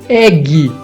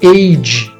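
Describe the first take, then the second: First: The final E is sounded. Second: The final E is silent. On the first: The speaker calls it wrong. "não poderia ser egg" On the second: The speaker calls it right. "têm esse E mudo"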